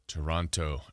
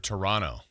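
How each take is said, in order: First: The second T is clearly pronounced. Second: The second T is dropped entirely.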